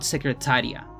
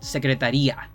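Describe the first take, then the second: First: The stress falls on the second-to-last syllable. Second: The stress falls on the final 'ia' ending. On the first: It names a person who works as a secretary. The speaker calls it wrong. "second to last syllable has an intonation" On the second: It names an institution, not a person. The speaker calls it right. "the last syllable has the accent"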